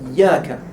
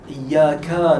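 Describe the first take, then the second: First: The vowel after the k is short. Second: The vowel after the k is long. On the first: The speaker calls it right. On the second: The speaker calls it wrong.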